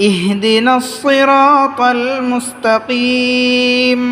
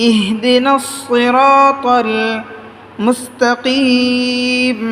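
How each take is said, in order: The two takes are said the same way.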